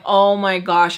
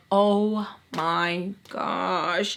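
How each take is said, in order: First: A louder, sharper oh my gosh; alarmed exclamation. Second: Slow, hushed oh my gosh drawn out; drawn-out gasp. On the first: Seeing the broken vase downstairs, a loud alarmed gasp. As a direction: blurt it out in alarm. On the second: Hearing a vase break downstairs, slow hushed dread. Hears something break upstairs. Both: Retold or imitated.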